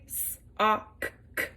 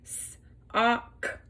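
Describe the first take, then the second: First: The k sound is sounded twice at the end. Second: The k sound is sounded once at the end. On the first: The speaker calls it wrong. "we don't say" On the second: The speaker calls it right. "we say"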